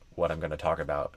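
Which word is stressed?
none. All syllables get even, equal length.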